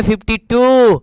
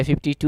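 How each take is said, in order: First: Mock English-medium answer, last word drawn out; imitating CBSE students. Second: Said in the usual way. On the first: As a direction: stretch out TOO like a CBSE pupil. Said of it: "अब CBSE वाले कहेंगे". (CBSE वालों की नकल, टू खींचकर) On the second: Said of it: "हमने कहा कि अच्छा, चल भाई, ठीक है".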